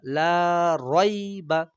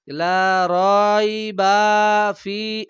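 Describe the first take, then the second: First: "লা রয়বা" with "লা" lengthened and "রয়বা" kept short; the right reading: long "লা", short "রয়বা"; correct la raiba. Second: "লা রয়বা ফি" with "রয়বা" wrongly stretched, slow and louder; faulty long "রয়বা" in "লা রয়বা ফি"; wrong la raiba. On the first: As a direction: stretch "লা", then a quick "রয়বা". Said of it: "লা টান হবে". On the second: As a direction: drag out "রয়বা" as the mistake to avoid. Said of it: "এমন যদি কেউ বলে অশুদ্ধ হবে". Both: Shown as a demonstration.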